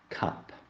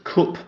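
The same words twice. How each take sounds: First: The word has an upper-class southern vowel. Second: The word has a northern English vowel. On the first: The speaker wants to seem of a higher class. "those who wanted to seem of a higher class would pronounce it as" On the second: The speaker is from the north or the Midlands. "northerners and Midlanders, pronounced cup as"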